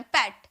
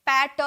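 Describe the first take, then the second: First: "पैट" short, as one syllable; quick single-beat "पैट" with no vowel after it; one single sound. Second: "पैट" drawn out as paa-tuh; exaggerated wrong "पैट", split into two syllables; two separate sounds. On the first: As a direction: say "पैट" in one go, stopping right on the T. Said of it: "एक ही बार में". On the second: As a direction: say "पैट" in two beats, adding a vowel after the T. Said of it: "दो बार ऐसे sound थोड़ी निकल रहा". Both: Shown as a demonstration.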